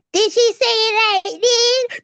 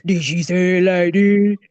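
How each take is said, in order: First: High, slow put-on voice; acting out a voice. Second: Acting out a voice. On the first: Daughter made to act out the teacher for mom, high put-on voice. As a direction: draw it out high, mimicking someone. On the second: Daughter trying another voice for mom's retelling, low put-on voice. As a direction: lower put-on voice. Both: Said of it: "It had to be a voice".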